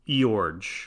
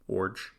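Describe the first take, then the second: First: The name begins with an 'ee' sound. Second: The name begins with an 'or' sound. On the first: The speaker calls it wrong. "I would have pronounced it Eorg" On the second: The speaker calls it right. "pronounced like orange with no N"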